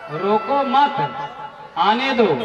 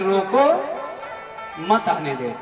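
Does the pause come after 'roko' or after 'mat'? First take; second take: after mat; after roko. First: The pause comes after 'mat', meaning don't stop him. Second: The pause comes after 'roko', meaning stop him.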